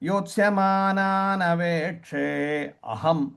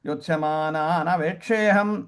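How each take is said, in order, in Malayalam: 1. 'aham' എന്ന വാക്ക് അതിലെ സ്വരത്തോടെ വേറിട്ടാണ് പറയുന്നത്. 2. 'aham'-ന്റെ ആദ്യ സ്വരം ഒഴിവാക്കി ചേർത്താണ് പറയുന്നത്. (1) "അഹം എന്നുള്ളതാണ്" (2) "ചൊല്ലി വരുമ്പോ"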